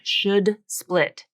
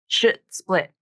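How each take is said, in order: First: A full, released D sound is pronounced. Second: A glottal stop replaces the D sound. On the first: "put the actual true D sound in there" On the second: "substitute a glottal stop instead of a D"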